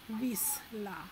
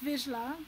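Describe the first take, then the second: First: The middle consonant is a voiceless 's' sound. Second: The middle consonant is a voiced 'zh' sound. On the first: "if it was SZ, then it would be S" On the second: "ZS is Zs"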